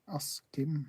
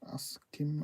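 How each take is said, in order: First: The middle consonants are pronounced as sk. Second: The middle consonants are pronounced as sk.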